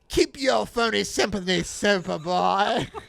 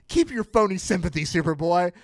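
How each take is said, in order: First: It is said in a theatrical supervillain voice. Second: It is read in an ordinary speaking voice.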